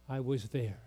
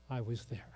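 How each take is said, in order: First: Soft, raspy and low. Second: Softer, fading raspy near-whisper; faint raspy voice. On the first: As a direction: rasp it quietly like an old woman. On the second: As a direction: let it die away, raspy and breathless. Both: Retold or imitated. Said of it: "with her raspy voice".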